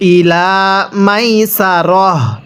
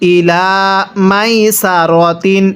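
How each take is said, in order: First: The last word ends with a short 'ah' sound. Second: The last word ends with a full 'atin' ending. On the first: The reading stops at this word. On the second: The reading continues without stopping here.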